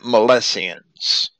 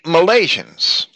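First: It is said unlike the word Malaysians. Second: It is said much like the word Malaysians.

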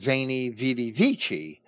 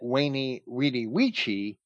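First: Each word begins with a V sound. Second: Each word begins with a W sound.

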